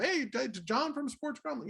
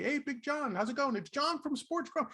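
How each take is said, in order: First: Slow, higher announcer-style proclamation; mock announcer. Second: Higher, bright imitated greeting; imitating a cheery hello. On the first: Ron introducing him to the world, mock announcer. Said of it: "he'll pretend like he's announcing it to the world". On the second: Ron greeting him in Manhattan, cheery imitated hello. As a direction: greet him like an old pal. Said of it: "every time I ran into him".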